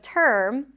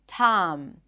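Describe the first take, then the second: First: The vowel is an r-colored er sound. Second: The vowel is an open ah sound. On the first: The speaker calls it right. "the stir sound is an R vowel" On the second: The speaker calls it wrong. "substitute the sound with just one open ah sound"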